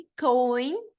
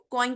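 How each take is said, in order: First: कॉइन stretched from a long "o" sliding up into "i"; gliding diphthong. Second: Said in the usual way. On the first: Shown as a demonstration. Teacher shows how we say it, कॉइन as slow gliding diphthong. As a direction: draw out both vowels in कॉइन, rising at the end. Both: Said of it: "कॉइन को हम कैसे बोलेंगे".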